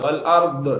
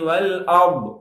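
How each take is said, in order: First: The final consonant ends with an echoing bounce. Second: The final consonant ends without a bounce. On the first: The speaker calls it wrong. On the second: The speaker calls it right.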